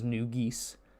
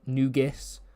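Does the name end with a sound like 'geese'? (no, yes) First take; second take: yes; no. First: The last syllable sounds like geese. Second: The last syllable does not sound like geese. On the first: The speaker calls it right. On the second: The speaker calls it wrong.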